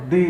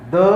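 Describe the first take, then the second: First: "दी" said as "dee"; long ee vowel on "दी"; strong form of the article. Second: "द" said as "duh"; short uh vowel on "द"; weak form of the article. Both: Shown as a demonstration. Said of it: "इस तरह पढ़ेंगे।".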